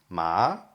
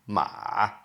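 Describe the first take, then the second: First: The pitch rises from low to high. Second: The pitch dips down, then rises. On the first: It means hemp. "If you if it rises" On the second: It means horse. "down and up the third tone"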